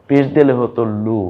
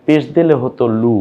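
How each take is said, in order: Both takes have the same delivery.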